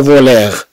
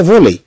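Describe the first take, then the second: First: فوليغ with the final r sounded like a French r; wrong pronunciation. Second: فولي ending in a clear e sound, r silent; right French reading, silent final r; correct pronunciation. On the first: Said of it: "بل ننطقوها فولي". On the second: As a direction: say فولي with no r at the end. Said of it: "لا ننطقوها فوليغ". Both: Shown as a demonstration.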